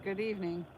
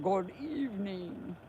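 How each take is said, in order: First: It is said in a normal reading voice. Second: It is said in a Dracula-like voice.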